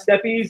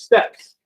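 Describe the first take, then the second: First: The word ends with an added 'eez' sound. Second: The word ends with a plain 's' sound. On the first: The speaker calls it wrong. "That's not steppies. If you've been pronouncing it steppies in your reading, please stop" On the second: The speaker calls it right. "It is steppes"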